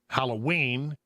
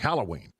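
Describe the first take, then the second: First: The stress is not on the first syllable. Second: The stress is on the first syllable. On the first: This is the standard way to say it. The speaker calls it right. "is correct" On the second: This is how Texans say it. The speaker calls it wrong. "but we say"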